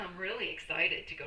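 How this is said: The voice sounds flat and unenthusiastic. The speaker does not really want to go. "the tonality in my voice that I'm really not that excited to go"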